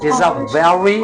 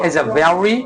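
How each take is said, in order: The two takes are said the same way.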